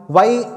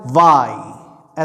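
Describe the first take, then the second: First: Said in the usual way. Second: वाई stretched very slowly with a short ई at the end; a slow, deliberate English Y; careful Y. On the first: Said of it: "आप लोग जैसे बोलते हैं". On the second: Shown as a demonstration. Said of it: "ये जो आपका ई है, उसको जल्दी बोलना है".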